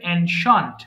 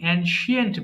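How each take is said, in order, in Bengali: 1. শেষ অংশটি একটি ছোট একক দল: shent। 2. শেষ অংশে একটি অতিরিক্ত 'ee' ধ্বনি আছে: shee-ent। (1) "বাট উচ্চারণটা হবে অ্যানশান্ট" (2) "এটাকে আমরা বেশিরভাগ কি বলি? অ্যানশিয়েন্ট বলি"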